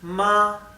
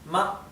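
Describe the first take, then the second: First: The pitch stays high and level throughout. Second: The syllable is light with a neutral pitch. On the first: It means mother. "es un tono más alto y, y que no tiene altibajos, no cambia" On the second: It is a question word. "el neutro"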